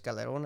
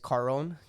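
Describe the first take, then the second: First: The name is said with Spanish sounds. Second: The name is said with English sounds. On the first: "I'm gonna say it like in Spanish"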